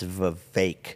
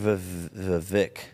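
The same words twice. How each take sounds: First: The last syllable rhymes with cake. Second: The last syllable does not rhyme with cake. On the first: The speaker calls it right. "It's Vivek. / Vivek rhymes with cake" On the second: The speaker calls it wrong. "You're saying Vivek"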